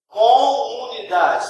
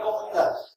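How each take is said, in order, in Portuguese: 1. A palavra é dita devagar. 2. A palavra é dita rápido.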